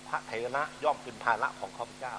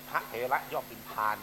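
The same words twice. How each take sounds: First: "ภาระ" in two clear syllables, pha-ra; careful demonstration of "ภาระ" with its R syllable; correct R reading. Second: "พาน" as one syllable ending in N; mistaken L reading. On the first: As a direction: end the word "ภาระ" on a short "ra". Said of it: "ว่าพานกับภาระเนี่ยมันต่างกันเลย". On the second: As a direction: say "พาน" as a single long "phaan". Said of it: "ความหมายไม่ต่างกันเลย". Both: Shown as a demonstration.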